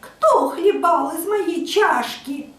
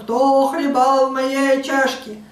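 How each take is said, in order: First: A thin, high, squeaky little voice. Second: A loud, deep, terrifying roar.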